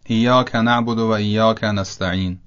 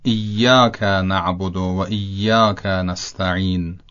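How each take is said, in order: First: ایاک with a short single y, "iyaka"; light single y in both ایاک; undoubled Y. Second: Both ایاک slowed with a held double y, "iyyaka"; long, stressed double y in ایاک; doubled Y. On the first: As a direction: run through ایاک without doubling the y. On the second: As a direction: slowly lean on the y in each ایاک. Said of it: "درستش همونطوری است". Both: Shown as a demonstration.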